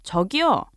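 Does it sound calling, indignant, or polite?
indignant. It is said in an indignant tone.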